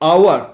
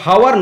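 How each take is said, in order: First: It begins with a vowel and no h sound. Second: It begins with a clear h sound. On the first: The speaker calls it right. "এর উচ্চারণটা কিন্তু আওয়ার" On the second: The speaker calls it wrong. "এটা হাওয়ার নয়"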